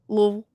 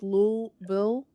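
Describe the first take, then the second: First: The word is said with one syllable. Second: The word is said with two syllables. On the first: "make it like one syllable" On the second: "I would make it s- two syllables"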